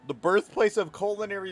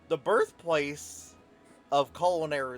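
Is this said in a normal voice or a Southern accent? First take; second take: normal; Southern. First: It is spoken in a plain normal voice. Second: It is spoken in a Southern American accent. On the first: "I'm just gonna do normal voice" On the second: "why do I all try to give him like a fucking southern accent?"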